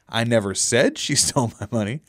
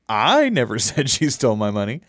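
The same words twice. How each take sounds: First: The stress is on the word 'said'. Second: The stress is on the word 'I'. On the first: The speaker implied it but did not say it. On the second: Someone else said it.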